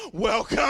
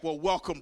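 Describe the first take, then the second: First: Loud, drawn-out mock-grand greeting; big booming welcome; hammed-up welcome. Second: Said in the usual way. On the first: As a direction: boom it out and hold the last syllable. Exaggerated repeat of brotherly greeting.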